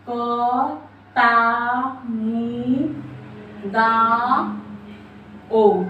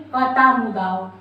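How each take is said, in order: First: कतामुदाओ very slowly, each syllable drawn out and separated. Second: Said in the usual way. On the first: Shown as a demonstration. Teacher breaking down a memory trick for students, slow syllable by syllable. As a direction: stretch out क, ता, मु, दा, ओ with pauses between.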